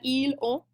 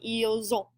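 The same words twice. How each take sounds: First: The S stays silent with no linking. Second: The S links to the next word as Z. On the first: The speaker calls it wrong. "it's much harder" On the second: The speaker calls it right. "that extra little Z sound in there makes it flow much more smoothly"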